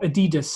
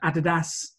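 First: It is said the American way. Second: It is said the British way.

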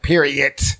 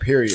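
First: The final T is sharply pronounced. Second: The final T is soft and not emphasized. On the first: "I wasn't saying it like, period. with the T on there" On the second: "I was just saying that"

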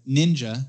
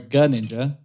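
First: The opening G sound is silent. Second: The opening G sound is pronounced. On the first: The speaker calls it right. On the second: The speaker calls it wrong.

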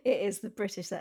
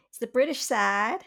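First: It is said in her normal voice. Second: It is said in an obnoxious put-on voice.

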